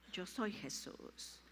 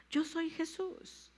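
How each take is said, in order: First: Slow hushed whisper of the divine name. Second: Slow, higher proclamation with YO stressed; proclaimed. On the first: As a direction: breathe it out slowly. (susurrado y lento) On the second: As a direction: announce it, leaning on yo. (proclamado, lento y agudo) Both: Shown as a demonstration.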